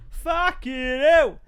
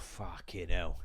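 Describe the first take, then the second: First: High, loud, slow "Fucking hell!"; loud curse. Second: Low, soft "Fucking hell"; low muttered curse. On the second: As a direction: say "Fucking hell" under your breath, low. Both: Shown as a demonstration.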